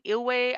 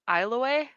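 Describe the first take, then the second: First: The first syllable sounds like "ill". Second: The first syllable sounds like "isle". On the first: This is how the name is actually said. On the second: This is how a reader might guess it from the spelling.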